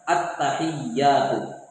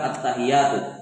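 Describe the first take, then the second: First: The t and y sounds are held doubled. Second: The t and y sounds are short and single. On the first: The speaker calls it right. "yang pertama pada kalimat at-tahiyyatu" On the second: The speaker calls it wrong.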